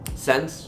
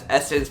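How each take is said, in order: First: It is said as one syllable, 'sense'. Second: It is said as two syllables, 'essence'. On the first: The speaker calls it wrong. "think about how you pronounce it" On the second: The speaker calls it right. "it was pronounced as Essence"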